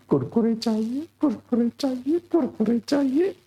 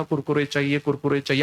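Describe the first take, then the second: First: Put-on high whining little boy, rising each time; child pestering mom for snacks; child whine. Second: Said in the usual way. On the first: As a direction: nag like a kid who won't stop. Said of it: "अब मैं mummy को कह रहा हूं". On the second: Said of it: "मैंने mummy को कहा".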